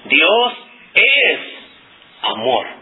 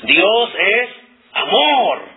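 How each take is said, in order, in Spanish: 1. La palabra es se enfatiza. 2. La palabra amor se enfatiza. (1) "si yo quiero enfatizar la palabra es o el verbo es" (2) "quiero enfatizar la palabra amor"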